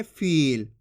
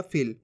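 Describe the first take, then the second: First: फील with a long held ee; drawn-out vowel. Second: फील short and low, like फिल; short vowel. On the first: Teacher contrasts बड़ी ई, फील drawn out long. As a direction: stretch the ई in फील. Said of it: "खींच के पढ़ेंगे". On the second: Teacher demonstrates छोटी ई, फील said short and low. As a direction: drop फील quickly with a short i. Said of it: "छोटी ई की मात्रा का उच्चारण हो जाएगा". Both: Shown as a demonstration.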